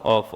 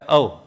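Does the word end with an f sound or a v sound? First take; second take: f sound; v sound. First: The word ends with an f sound. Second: The word ends with a v sound. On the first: The speaker calls it wrong. "ऑफ बोलते ही गलत होगा" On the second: The speaker calls it right. "ये होता है अव"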